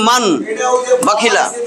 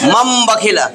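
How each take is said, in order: First: The consonant before the b sounds like n. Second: The consonant before the b sounds like m.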